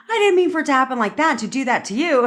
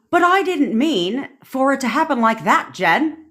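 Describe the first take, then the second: First: High, quick imitation of a friend protesting; retold protest. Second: High-pitched put-on UK accent. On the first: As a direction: protest in a mock high voice, hurried. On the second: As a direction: imitate a friend's protest in a UK accent. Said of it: "That was my U K accent".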